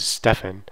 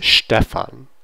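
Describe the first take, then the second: First: Stefan with a plain English st, not sht. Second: Stefan said slowly with sht at the start; German Stefan. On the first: Teacher showing the wrong English Stefan. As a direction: say Stefan the way an English reader would. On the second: Teacher modelling German Stefan with sht. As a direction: open Stefan with sht, like Schtefan. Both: Shown as a demonstration. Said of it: "you think this is Stefan, it's Stefan".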